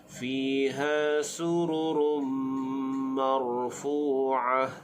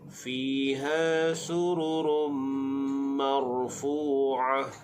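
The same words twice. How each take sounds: The two takes are said the same way.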